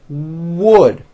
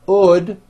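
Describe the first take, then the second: First: The word starts with a clear W sound. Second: The word starts with no W sound. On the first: The speaker calls it right. "it's wood" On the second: The speaker calls it wrong. "not ood without a W"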